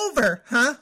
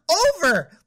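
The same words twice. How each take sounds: First: Said in the usual way. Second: Loud, high furious shout of one word; angry yell. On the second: Acted. Dumped girlfriend yelling the word from his text in fury. Anger erupts at boyfriend.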